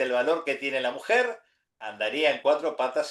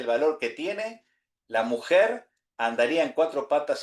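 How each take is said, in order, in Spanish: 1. La pausa va justo después de 'mujer'. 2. La pausa va justo después de 'tiene'.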